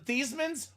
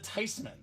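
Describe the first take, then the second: First: The name does not rhyme with Heisman. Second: The name rhymes with Heisman. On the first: This is the family's old pronunciation. The speaker calls it wrong. "We're not the Theismanns" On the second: This is the proper German pronunciation. The speaker calls it right. "We're the Theismanns"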